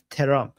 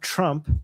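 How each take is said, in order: First: A short vowel is inserted between t and r. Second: The t and r are joined without a vowel. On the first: "you have terump" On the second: "You don't have Trump"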